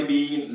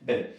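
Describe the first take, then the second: First: बीन with a long drawn ee, like the snake charmer's flute; बीन said long, the wrong way; long vowel been. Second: बिन with a short clipped i, like English been; बिन said short, the right way; short vowel been. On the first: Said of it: "लंबी की बात नहीं". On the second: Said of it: "short ही". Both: Shown as a demonstration.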